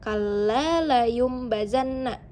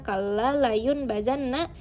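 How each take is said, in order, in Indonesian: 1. Bunyi m ada sebelum b. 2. Bunyi n ada sebelum b. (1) "Karena ini adalah iklab. Jadi kita membacanya kala layum bazanna. Itu yang benar" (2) "Bunyi awalnya adalah un. Jadi jika kalian membaca kala layun bazanna itu salah"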